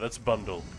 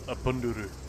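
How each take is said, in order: First: The word ends in a plain 'dle' sound. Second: The word ends in a drawn-out 'duru' sound. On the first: "Sorry, that's bundle" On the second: "we always say it like that"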